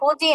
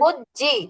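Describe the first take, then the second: First: The j sound is short and single. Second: The j sound is held long and doubled. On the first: The speaker calls it wrong. "ফুজি না" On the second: The speaker calls it right. "জিমটা দুইবার উচ্চারণ করতে হবে"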